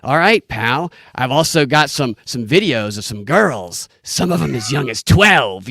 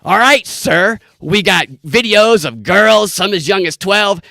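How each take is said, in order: First: A hint of a sleazy pawn shop clerk, slow; barely put-on sleaze, dragged out slowly; sleazy pawn shop guy. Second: Higher, louder, slow sleazy voice; sleazy pawn shop guy. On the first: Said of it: "the sleazy, uh, pawn shop guy goes". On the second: Retold or imitated. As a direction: ham up a creepy salesman, pitched up. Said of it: "the guy goes".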